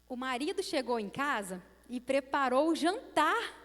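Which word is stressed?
jantar. The emphasis falls on the word jantar. The dinner itself was wonderful. "eu enfatizei na primeira frase o jantar"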